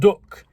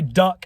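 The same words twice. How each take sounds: First: The word is said in a northern English accent. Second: The word is said in a southern English accent. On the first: "and not" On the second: "I say duck"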